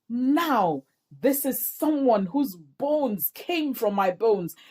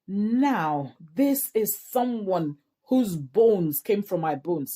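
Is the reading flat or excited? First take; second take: excited; flat. First: It is read in an excited, delighted tone. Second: It is read in a flat, unexcited tone.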